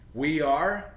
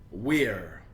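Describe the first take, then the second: First: Both words are said in full. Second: The words are joined into one syllable.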